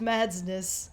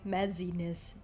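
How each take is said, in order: First: No extra vowel is added, making two syllables. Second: An extra vowel is added, making three syllables. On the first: The speaker calls it right. "It's just Madsness" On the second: The speaker calls it wrong. "miscall me Madsiness because they think they have to pronounce the Z like a, Z- a Z-E"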